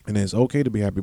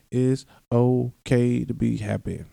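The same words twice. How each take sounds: First: Said in the usual way. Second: Slow, stretched-out words of comfort; slow reassurance. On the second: Real, not acted. Podcaster giving listeners permission, slow reassurance. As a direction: draw out OKAY and take your time.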